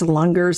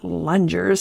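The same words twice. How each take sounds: First: The g is hard, as in lungs. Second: The g is soft, as in lunge. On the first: The speaker calls it right. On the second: The speaker calls it wrong.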